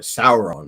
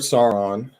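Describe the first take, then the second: First: Sauron said as "SOW-er-on", drawn out with respect; corrected name. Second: Sauron said as "SAR-on", flat first vowel; mispronounced name. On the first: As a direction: give Sauron a full "sow" sound, like you mean it. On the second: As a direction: say Sauron as "SAR-ron", short and clipped. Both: Shown as a demonstration. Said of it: "You gotta say it right".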